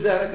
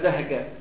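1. الحرف الأوسط صوت راء واضح. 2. صوت الراء يُستبدل بصوت القاف. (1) "قول زهرة" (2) "فالراء ما تطلع عندهم"

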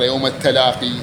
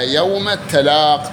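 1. الكلمة الأخيرة تنتهي بصوت 'ee' الطويل. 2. الكلمة الأخيرة لا تنتهي بصوت 'ee' الطويل في آخرها. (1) "ووقف ابن كثير بالياء على الوجه الأفصح" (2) "وقف الجمهور على المتعال والتلاق"

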